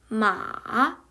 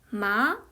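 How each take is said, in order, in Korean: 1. 3성으로 발음합니다. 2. 음이 중간 높이에서 가장 높은 음으로 올라갑니다. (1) "삼성으로 읽게 되면" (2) "이성은 중간 정도 음에서 가장 높은 음으로 올려주면 돼요"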